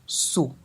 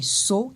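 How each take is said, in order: First: The pitch falls on the vowel. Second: The pitch rises on the vowel. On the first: It means to wash. "l'intonation au niveau de la voyelle O, avec, on a tendance à descendre" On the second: It means doe. "dans l'intonation du O, on a tendance à monter"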